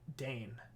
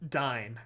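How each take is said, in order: First: The vowel sounds like the one in 'day'. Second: The vowel sounds like the one in 'die'. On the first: "I always say Dane" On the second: "it's actually Dine"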